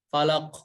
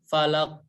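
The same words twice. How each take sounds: Both takes have the same delivery.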